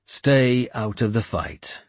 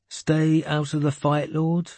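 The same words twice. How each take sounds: First: Slow, measured command; firm repeated order. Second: High-voiced boy querying an order; questioning interruption. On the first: Warlord confirming his order to the boy, firm. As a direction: state it slowly and firmly, no question. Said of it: "I said". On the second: Boy interrupting his lord about the order, questioning. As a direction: cut in with a high, puzzled question. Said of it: "he interrupted me". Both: A narrator's reading.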